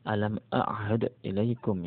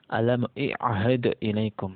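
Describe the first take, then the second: First: The verb begins with an a vowel. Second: The verb begins with an i vowel. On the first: This is the commonly heard reading. "Anda mungkin sering membaca" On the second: This is a regional reading variant. "Jadi orang Asadi, contoh lagi nih ya, membaca"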